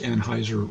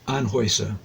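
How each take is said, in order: First: The middle vowel sounds like 'eye'. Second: The middle vowel sounds like 'oy'. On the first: The speaker calls it wrong. "I don't think Anheuser is pronounced Anheuser really" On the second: The speaker calls it right. "I think it should be pronounced something more like Anheuser"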